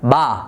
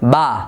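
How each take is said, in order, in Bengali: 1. স্বরধ্বনিটি খুব খোলা, পূর্ণ ও ভারী। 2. স্বরধ্বনিটি খুব খোলা, পূর্ণ ও ভারী।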